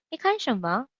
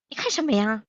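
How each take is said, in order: First: Politely asked, slightly higher; a courteous question. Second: Confrontational version; rude. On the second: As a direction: challenge them, a bit aggressive. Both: Shown as a demonstration. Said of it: "one is polite".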